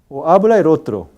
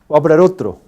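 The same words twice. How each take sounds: First: It is said slowly with the vowels kept apart. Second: It is said quickly with the vowels run together. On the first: "Pronunciar en el habla lenta" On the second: "O en el habla rápida"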